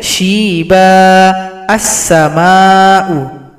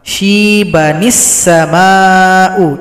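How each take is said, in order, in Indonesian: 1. Berhenti setelah kata pertama, lalu mulai lagi. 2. Kedua kata menyambung, dihubungkan dengan bunyi 'ni'. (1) "Cara yang pertama kita berhenti saja pada akhir ayat tujuh belas" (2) "kita gabung ayat delapan belas dan tujuh belas"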